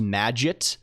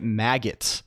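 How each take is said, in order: First: The g is soft, like in magic. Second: The g is hard, like in maggot. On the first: "supposed to be pronounced Magit" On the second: "I always say it maggot"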